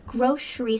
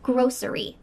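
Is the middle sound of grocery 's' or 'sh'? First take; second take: sh; s. First: The middle consonant is a 'sh' sound. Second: The middle consonant is an 's' sound. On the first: "with a sh sound in the middle" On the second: "with an S sound in the middle"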